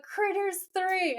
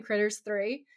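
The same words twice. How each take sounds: First: High, drawn-out echo of the film title; imitated exclamation. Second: Said in the usual way. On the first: Actor echoing a fan's mention of his film, mock exclamation. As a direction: repeat it slowly, pitched way up. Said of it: "And Jared's like". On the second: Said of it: "And Dean says".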